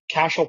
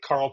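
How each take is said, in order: First: The R sound is said as sh. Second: The R sound is said as r. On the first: "why didn't you pronounce the R in the first name? Why wasn't it Cashel" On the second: "instead of Carl Pilash"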